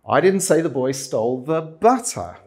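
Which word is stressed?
butter. The stress is on "butter".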